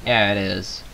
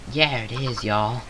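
First: Said in the usual way. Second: Drawled Southern American twang; lightly put-on Southern American accent. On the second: Shown as a demonstration. Southern American accent tried out on Minecraft viewers. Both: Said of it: "I sound really, uh, southern".

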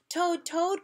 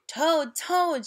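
First: Higher, rising call of the name; crying out. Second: Loud, higher call through a door; shouting. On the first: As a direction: call out eagerly. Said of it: "cried Frog". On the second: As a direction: call out to wake a friend. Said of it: "shouted Frog". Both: Acted.

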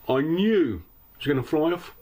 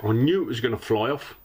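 First: "knew" drawn up high and hard; stress on KNEW. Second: Said in the usual way. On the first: Real, not acted. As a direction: lean heavily on the word "knew". Repeats it for emphasis.

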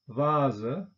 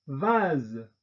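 First: 'Vase' said the German way, with a final schwa, vazə; German 'Vase' with a trailing schwa; German-style. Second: 'vase.' said the French way, vaz with a released voiced z; French 'vase.' with no schwa. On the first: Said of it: "deutsche Aussprache ... Schwarlaut". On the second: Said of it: "französischen Aussprache mit Detente". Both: Shown as a demonstration.

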